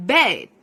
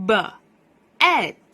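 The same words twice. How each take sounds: First: "bed" as one loud, clear syllable; blended word. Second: "b", pause, "Ed" as two phonics sounds; sounded out separately. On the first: Teacher blends the new word for children, blended word. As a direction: join buh and ed firmly into "bed". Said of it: "เรามาสร้างคำศัพท์ใหม่กัน". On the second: Teacher builds a new word for children, sounded out separately. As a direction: split the word into buh, then "Ed". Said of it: "มารวมกับเสียงกลุ่มเสียง". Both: Shown as a demonstration.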